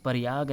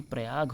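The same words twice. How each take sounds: First: प्रयाग as "pariyaag"; incorrect pronunciation. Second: प्रयाग as "prayaag"; correct pronunciation. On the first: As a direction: say प्रयाग with a vowel splitting P and R. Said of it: "नहीं". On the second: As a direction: say प्रयाग with P and R joined. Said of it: "प्रयाग होता है". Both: Shown as a demonstration.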